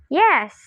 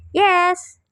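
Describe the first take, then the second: First: YES higher and louder, with a swooping pitch; fall-rise with reservation. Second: YES pitched high and louder, left open; questioning rise. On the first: B reluctant to agree with A about the school, reserved fall-rise. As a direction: agree with "Yes" while holding something back. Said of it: "agreement or response with reservation". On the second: B replying to A who wants attention, questioning high tone. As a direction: answer "Yes" as if asking what they want. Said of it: "B's reply is perhaps equivalent to, "What do you want?". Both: Shown as a demonstration.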